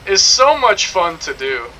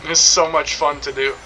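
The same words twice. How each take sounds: First: Slow, drawn-out British delivery; exaggerated British accent. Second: Said in the usual way. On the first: Shown as a demonstration. Streamer showing off his dubbing voice, exaggerated British accent.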